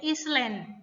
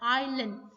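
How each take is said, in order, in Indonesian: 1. Bunyi "s" dibaca dalam kata itu. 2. Bunyi "s" tidak dibaca dalam kata itu. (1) "Kebanyakan dari orang Indonesia bacanya Island" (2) "S-nya silent, S yang nggak ada, nggak dibaca"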